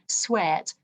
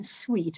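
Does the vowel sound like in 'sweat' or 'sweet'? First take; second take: sweat; sweet. First: The vowel is short, as in sweat. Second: The vowel is long, as in sweet. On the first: This is the older pronunciation from Shakespeare's time. "it would have been sweat, something like that" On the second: This is the modern pronunciation. "it wouldn't have been sweet"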